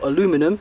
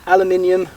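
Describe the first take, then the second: First: Said with four syllables, ending in -inum. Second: Said with five syllables, ending in -inium.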